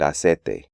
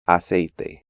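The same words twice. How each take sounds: First: The I sound of the diphthong is dropped. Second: The diphthong glides smoothly like English long A. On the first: The speaker calls it wrong. "eliminate the I sound" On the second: The speaker calls it right. "the more accurate pronunciation"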